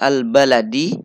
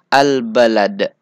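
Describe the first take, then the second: First: The word ends with a short i vowel. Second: The word ends on a bare consonant. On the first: The reading continues past this word. "huruf terakhir yang berharokat kasroh" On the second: The reading stops at this word. "disukunkan. Jadi menjadi al-balad"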